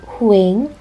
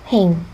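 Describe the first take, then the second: First: The vowels are split into two syllables. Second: The vowels glide together in one syllable. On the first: The speaker calls it wrong. "Not huing" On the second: The speaker calls it right. "it's 횡"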